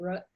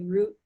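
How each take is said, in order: First: The vowel is short, as in but. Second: The vowel is long, as in boot. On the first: "people will say rut" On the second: "where I'll say root"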